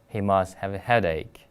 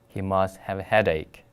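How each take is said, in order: Both takes have the same delivery.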